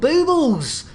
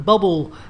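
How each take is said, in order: First: The first vowel is a long 'oo' sound. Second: The first vowel is a short 'uh' sound. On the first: The speaker calls it right. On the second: The speaker calls it wrong.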